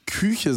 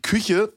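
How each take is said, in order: First: "Küche" with a drawn-out ü; long vowel in Küche. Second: Said in the usual way. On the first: Shown as a demonstration. Co-host showing how he says Küche unlike everyone, long ü. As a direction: stretch the first vowel of "Küche". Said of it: "du ziehst es so ein bisschen lang". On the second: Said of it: "wie jeder andere das sagt".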